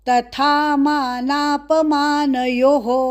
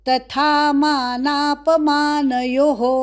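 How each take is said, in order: No difference in how they are said.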